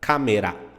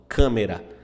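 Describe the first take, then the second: First: The first vowel is oral, not nasalized. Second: The first vowel is nasalized. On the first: "Em japonês você vai falar câmera" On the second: "Em português a gente fala"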